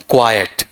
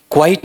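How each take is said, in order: First: "क्वाइट" in two syllables, kwai-et, falling; correct pronunciation. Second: "क्वाइट" squeezed into one syllable, kwait, higher; wrong pronunciation. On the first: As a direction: say "क्वाइट" as "क्वा-यट", second vowel heard. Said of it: "बड़ा ही interesting उच्चारण है". ("क्वाइट" का सही उच्चारण, दो हिस्सों में "क्वा-यट") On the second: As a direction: say "क्वाइट" as "kwite", no second vowel. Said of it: "नहीं". ("क्वाइट" का गलत उच्चारण, एक ही हिस्से में) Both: Shown as a demonstration.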